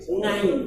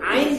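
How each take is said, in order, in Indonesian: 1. Kata ini diawali bunyi ng. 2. Kata ini langsung diawali vokal.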